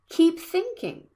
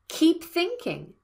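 The two takes are said the same way.

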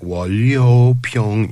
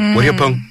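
First: The word is said slowly, syllables kept apart. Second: The word is said fast, syllables crushed together. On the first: The word is new to the speaker. "if when I read it as seeing it for the first time" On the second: The speaker is familiar with the word. "You're like"

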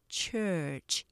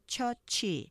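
First: The word is said with one syllable. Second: The word is said with two syllables. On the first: The speaker calls it right. "이렇게 하나, 이름절로 발음하시면서" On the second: The speaker calls it wrong. "그렇게 이음절로 발음하기 쉬운데요"

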